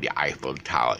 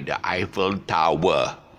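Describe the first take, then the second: First: Tower is said as one smooth gliding syllable. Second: Tower is said as two separate syllables. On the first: The speaker calls it right. "it's a British guy saying the Eiffel Tower" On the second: The speaker calls it wrong. "He won't say the Eiffel Tower"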